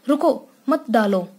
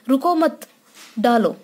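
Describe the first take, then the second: First: There is a short pause after the first word. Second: There is a short pause after the second word. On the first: Stop, do not throw the color on me. "हमने रुको और मत के बीच में थोड़ा विश्राम किया" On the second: Do not stop, keep throwing the color. "मत और डालो के बीच जो अल्प विराम है यहाँ हम थोड़ी देर के लिए रुके"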